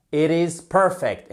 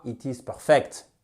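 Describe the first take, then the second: First: "perfect" as PER-fect in fluent English; stress on first syllable. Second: "perfect" as per-FECT with French sounds; wrong syllable stressed. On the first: Teacher models good pronunciation, "perfect" stressed on first syllable. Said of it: "La première, c'est une bonne prononciation". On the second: Teacher shows what to avoid, "perfect" stressed on second syllable. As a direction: put the weight on the end of "perfect". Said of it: "et non pas". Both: Shown as a demonstration.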